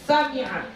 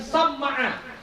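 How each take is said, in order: First: The m is single, followed by an i vowel. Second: The m is doubled, followed by an a vowel. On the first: This is the reading given by another scholar. "mengkasrahkan mim yang mukhaffafah, enggak bertasydid" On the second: This is the first reading of the word. "memfathahkan mim yang bertasydid"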